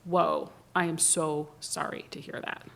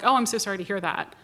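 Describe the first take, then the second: First: It sounds slow and caring. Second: It sounds quick and careless.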